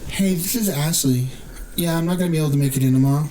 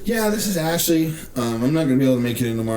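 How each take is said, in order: First: It is said in a put-on woman's voice. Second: It is said in his normal voice.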